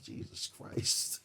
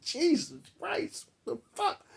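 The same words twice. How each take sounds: First: Breathless whispered gasp of disbelief; hushed, stunned mutter; awed whisper. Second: Much higher, strangled squeal of disbelief; shocked squeal. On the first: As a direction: whisper it, stunned by how much she eats. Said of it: "I'm just watching her like". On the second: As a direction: squeak it out at the price of the hat. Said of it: "I'm like". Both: Retold or imitated.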